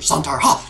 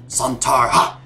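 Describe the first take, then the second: First: The cry is said at a fast pace. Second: The cry is said at a slow pace.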